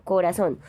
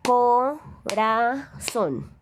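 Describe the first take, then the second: First: Said in the usual way. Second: Corazón stretched slowly, syllable by syllable, higher; slow syllable split. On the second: Shown as a demonstration. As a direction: spell out Corazón in slow beats. (Corazón muy despacio, sílaba por sílaba) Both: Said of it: "reconociendo el golpe de voz".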